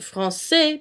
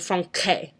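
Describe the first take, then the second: First: The middle consonant is an S sound. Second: The middle consonant is a K sound. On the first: The speaker calls it right. "you pronounce it français" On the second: The speaker calls it wrong. "It'd sound like a K instead of an S"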